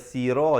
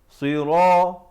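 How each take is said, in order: First: The first s sound is light and thin. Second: The first s sound is heavy and deep. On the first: The speaker calls it wrong. "jangan baca sira jadi huruf sin" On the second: The speaker calls it right. "mula dengan huruf sad berbaris bawah"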